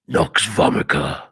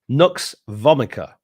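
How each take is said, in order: First: It is said in a deep, booming God voice. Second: It is said in a normal speaking voice.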